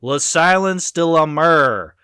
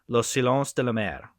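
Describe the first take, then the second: First: It is said with an American accent. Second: It is said with a French accent. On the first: "I'll say it the American way" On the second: "that's my pretentious French way of saying it"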